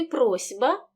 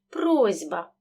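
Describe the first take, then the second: First: Said in the usual way. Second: Сь in «просьба» said as зь; voiced сь. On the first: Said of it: "глухий «с» перед дзвінким". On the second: Shown as a demonstration. Teacher models the spoken form, сь voiced. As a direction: say «просьба» as proz'ba. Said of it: "переходить у парний дзвінкий".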